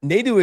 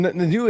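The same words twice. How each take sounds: First: Nadu said as NAY-doo; NAY pronunciation. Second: Nadu said as nuh-DOO; short uh opening "Nadu", corrected; NUH pronunciation. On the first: Co-host slipping on the name, Nadu said NAY-doo. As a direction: say "Nadu" with a long ay first. Slip before correcting the name. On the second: Co-host fixing his slip, Nadu said nuh-DOO. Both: Real, not acted.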